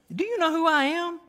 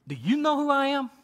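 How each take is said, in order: First: Put-on higher, accented angel repeating his challenge; Gabriel's accented voice, more worked up. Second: Put-on high, accented angel asking who he is; Gabriel's angel voice with a light accent. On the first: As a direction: push the accent further on the angel's question. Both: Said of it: "a little, little accent added there".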